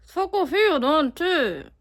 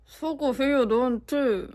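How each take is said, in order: First: Louder, higher sarcastic scolding; angry scolding. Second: Half-hearted sarcastic scolding; a light reproachful dig; mild scolding. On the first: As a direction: really lay into them. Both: Shown as a demonstration. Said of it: "아, 다시, 다시".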